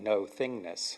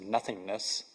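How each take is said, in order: First: The word begins with 'no', split from 'thingness'. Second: The word begins with 'nuh', as one word. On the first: Experience without things or objects. "but is really more like no-thingness" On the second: A void where nothing exists. "what sometimes is pronounced as nothingness"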